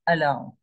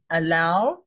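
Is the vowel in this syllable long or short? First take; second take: short; long. First: The vowel is clipped short and reduced. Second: The vowel is held long and full. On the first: "I've reduced it. It's now allow. It's shorter" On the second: "This is allow"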